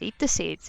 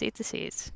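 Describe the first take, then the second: First: Said in the usual way. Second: Soft unvoiced whisper. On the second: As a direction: breathe it out, barely a sound. Repeated line, second whispered.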